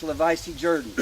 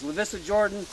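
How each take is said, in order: First: "Lavisi Jordan" said "la-VY-see JUR-dan"; long i in Lavisi, Jordan turned to "Jurdan"; local pronunciation. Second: "Lavissa Jordan" with short i, "la-VISS-a"; name as written. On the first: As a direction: say "Lavisi Jordan" the old family way. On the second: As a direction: Lavissa ending in "ah", Jordan as "JOR-dan". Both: Shown as a demonstration. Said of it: "It was pronounced Lavisi Jordan".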